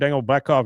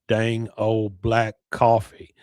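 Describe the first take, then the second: First: Boomhauer's voice says it fast and mumbled. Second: Boomhauer's voice says it slowly and drawn out.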